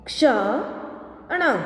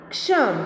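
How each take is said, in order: First: Slow, each sound drawn out, rising at the end; slow drawn-out reading. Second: Said in the usual way. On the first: Shown as a demonstration. Teacher slowly sounding out a word for students, drawn out. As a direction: stretch the word slowly for the class. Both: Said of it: "अब इसका शब्द हम देखें".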